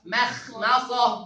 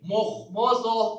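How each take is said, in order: First: The M sound is thin and light. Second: The M sound is thick and heavy. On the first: The speaker calls it right. "Padahal mim tarkib" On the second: The speaker calls it wrong. "yang salah dulu nih"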